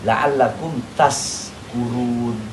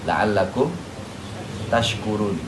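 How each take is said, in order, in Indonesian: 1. Kata terakhir diucapkan dengan bunyi 's'. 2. Kata terakhir diucapkan dengan bunyi 'sh'.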